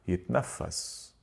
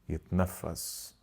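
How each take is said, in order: The two takes are said the same way.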